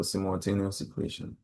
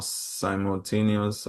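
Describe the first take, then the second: First: "simultaneous" opening like "sim"; short-i pronunciation. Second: "simultaneous" opening like "sigh"; long-i pronunciation. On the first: Teacher offering an alternative, short-i "simultaneous". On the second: Teacher unsure of the word, long-i "simultaneous". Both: Shown as a demonstration. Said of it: "check the right pronunciation".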